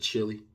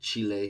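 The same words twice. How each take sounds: First: It is pronounced the usual English way. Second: It is pronounced the way native speakers say it. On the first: It ignores how locals say it. "instead of" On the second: It shows respect for how locals say it. "that's for respect of how they say it"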